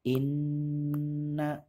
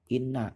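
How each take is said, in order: First: The nasal sound is held long and stressed. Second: The nasal sound is said quickly and short. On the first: The speaker calls it right. "Dibacanya dengan berdengung, ditekan dan ditahan dua harokat" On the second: The speaker calls it wrong. "jangan dibaca cepat ... tidak boleh dibaca seperti itu"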